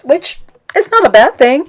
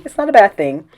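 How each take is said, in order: First: Pitched way up and louder on "not"; insisting it's fine, raised high; emphatic insistence. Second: Said in the usual way. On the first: Real, not acted. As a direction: push hard on "not a bad thing". Insists confidence is a good thing.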